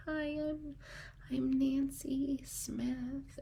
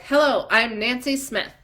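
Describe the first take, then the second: First: Much softer and higher, slow and hesitant; timid introduction. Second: Louder, self-assured hello; confident introduction. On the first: Imitating a shy woman at a seminar, meekly. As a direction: shrink back as you say your name. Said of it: "these women stand up and they're like". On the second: Seminar woman finally introducing herself, confidently. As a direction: stand tall and announce your name. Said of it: "until they're like". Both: Retold or imitated.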